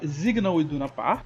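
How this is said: Signal begins with a buzzing Z sound. "no alemão acaba se traduzindo para Signal Iduna Park, o S tem o som ali de Z"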